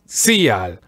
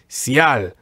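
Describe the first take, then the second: First: The I vowel is strong and emphasized. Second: The I is weak and the A is emphasized. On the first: The speaker calls it wrong. "aiming for a strong I, which would sound like Cial. So no, don't do it like that" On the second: The speaker calls it right. "Just emphasize the letter A"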